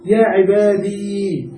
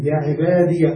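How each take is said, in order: First: عبادي ending in a long, still "ee"; sukun on ya. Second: عبادي ending in "-diya"; fatha on ya. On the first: Teacher giving Quranic example, عبادي with a stretched silent ya. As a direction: slowly draw out the last vowel of عبادي. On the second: Teacher naming the vowel, عبادي voiced as "ibadiya". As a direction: add a short "a" after the ya of عبادي. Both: Shown as a demonstration. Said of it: "بالفتح".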